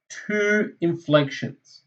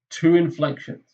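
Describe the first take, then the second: First: "two" drawn out slowly with a falling tune; slow emphasis. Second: Said in the usual way. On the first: Shown as a demonstration. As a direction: spell out "two inflections" slowly like a teacher.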